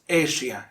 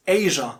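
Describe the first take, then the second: First: Asia as AY-shee-uh, three syllables; mispronunciation. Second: Asia as AY-zhuh, two syllables; correct pronunciation. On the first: Teacher showing learners what to avoid, mispronounced Asia. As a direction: say "Asia" wrongly with shee-uh at the end. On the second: Teacher giving learners the right Asia, correct pronunciation. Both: Shown as a demonstration. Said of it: "not Asia".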